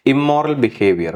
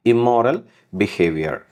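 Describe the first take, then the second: First: immoral behaviour said slowly, immoral stressed; slow model phrase. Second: Said in the usual way. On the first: Shown as a demonstration. Teacher slowly models immoral behaviour for students. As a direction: spell out immoral behaviour for the class. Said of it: "teacher models phrase".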